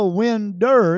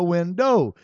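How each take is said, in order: First: The word ends with an 'er' sound. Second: The word ends with an 'oh' sound. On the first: The speaker calls it wrong. "It's not a winder" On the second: The speaker calls it right. "it's a window"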